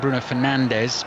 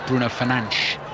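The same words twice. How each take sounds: First: The name is said with English-style pronunciation. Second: The name is said with Portuguese-style pronunciation.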